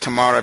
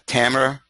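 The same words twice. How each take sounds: First: The name is said the Egyptian way. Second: The name is said a non-Egyptian way. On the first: "this is the Egyptian way of pronouncing your name" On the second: "you might be pronouncing it as Tamara"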